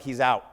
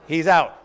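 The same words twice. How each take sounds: First: Retold through a laugh, kept low; laughing quote. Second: Louder repeat, bursting with a laugh. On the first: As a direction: laugh out the words as you quote. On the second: Retold or imitated. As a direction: punch it out with a laugh. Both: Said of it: "Peterman's like".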